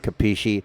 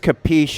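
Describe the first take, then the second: First: It is said in a northern Italian way. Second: It is said in a southern Italian way. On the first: "In the north, they'd say capisci" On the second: "I think that's the southern um, pronunciation"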